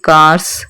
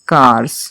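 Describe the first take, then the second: First: The word ends with an s sound. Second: The word ends with a z sound. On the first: The speaker calls it wrong. "नहीं पढ़ा जा सकता" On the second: The speaker calls it right. "हमने उसे जा पढ़ना है"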